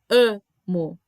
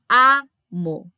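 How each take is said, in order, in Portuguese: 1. A primeira vogal é um A fechado e nasal. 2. A primeira vogal é um A aberto. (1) "Não tem amo" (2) "O A é sempre aberto. É amo"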